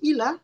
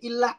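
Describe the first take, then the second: First: The l sound is short, not doubled. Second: The l sound is held long, doubled. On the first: The speaker calls it wrong. "nggak pakai tasdid atau kurang tasdidnya" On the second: The speaker calls it right. "dari ilah aja"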